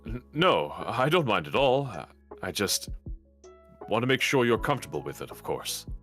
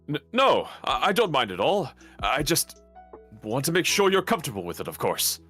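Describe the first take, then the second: First: It is said in a fairly composed way. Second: It is said in a flustered, stammering way.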